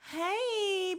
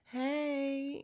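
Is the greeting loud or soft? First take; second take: loud; soft. First: The greeting is said loudly. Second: The greeting is said softly.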